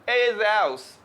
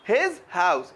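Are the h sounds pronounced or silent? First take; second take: silent; pronounced. First: The h sounds are dropped. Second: The h sounds are pronounced.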